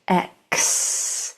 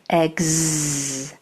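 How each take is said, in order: First: The sound is voiceless, like ks. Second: The sound is voiced, like gz. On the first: "This is its um, quiet sound" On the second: "This is its vibrating sound"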